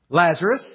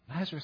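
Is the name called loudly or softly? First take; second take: loudly; softly. First: The name is called loudly with a raised voice. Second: The name is called softly and gently. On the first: The caller wants to be sure the listener hears. "But I'm going to raise my voice now" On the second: The caller does not want to startle the listener. "I didn't want to startle you"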